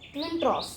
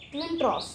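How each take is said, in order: First: The second word has an 'ah' vowel. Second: The same.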